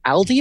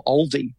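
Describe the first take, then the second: First: Aldi with a short a, like the name Al; first pronunciation variant. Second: Aldi with a rounded first vowel, like "all"; second pronunciation variant. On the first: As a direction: say Aldi as AL-dee. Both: Shown as a demonstration. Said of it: "I don't even know how to say it".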